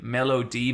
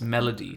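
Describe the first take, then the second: First: The name is said slowly, split into parts. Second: The name is said quickly as one word. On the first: It is a name ending in a letter. "it's like Melody" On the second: It sounds like the word for music. "if you say it fast enough, it's melody"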